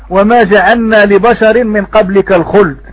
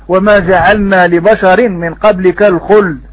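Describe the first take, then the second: No difference in how they are said.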